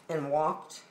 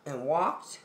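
No difference in how they are said.

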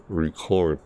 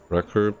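First: Record as ri-KORD, second syllable stressed; record, as in to record a song; verb stress. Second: Record as REK-erd, first syllable stressed; record, as in a vinyl record; noun stress. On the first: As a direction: hit the CORD in record. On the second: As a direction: hit the REC in record. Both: Shown as a demonstration. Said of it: "That's also how you spell".

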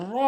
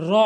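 First: র as a full, heavy rolled Arabic r; correct full র. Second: র as a light Bengali r; mispronounced র. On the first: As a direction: curl tongue tip to palate, fill out র. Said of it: "পুর করে বলতে হবে". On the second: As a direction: say র lightly, short. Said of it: "ভুল উচ্চারণ". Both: Shown as a demonstration.

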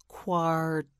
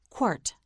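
First: "Quart" drawn out, the final t released separately; sounded-out word. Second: Said in the usual way. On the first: Shown as a demonstration. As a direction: stretch "Quart" and detach its t. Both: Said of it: "You say it, say quart".

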